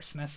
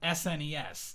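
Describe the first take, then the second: First: It is said as one short word. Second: Each letter is spoken separately. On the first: "is shorter" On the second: "Since he says "an,""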